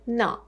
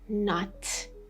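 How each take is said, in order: First: The final T is held, not released. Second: The final T is clearly released. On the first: "I kept that T sound inside my mouth, not letting it come out" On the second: "I didn't say not"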